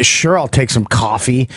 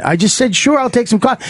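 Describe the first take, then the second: First: Said in the usual way. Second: Higher-pitched, exasperated repeat of a reply; acted-out indignant insistence; defensive repeat. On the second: Co-pilot repeats his coffee answer in a squabble, defensive.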